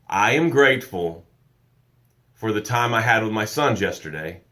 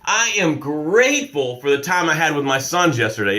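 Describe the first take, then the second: First: It is said with little energy. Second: It is said with a lot of energy.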